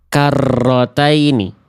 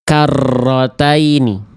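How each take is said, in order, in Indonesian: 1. Huruf r ganda digetarkan dengan kuat dan panjang. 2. Huruf r ganda digetarkan dengan kuat dan panjang.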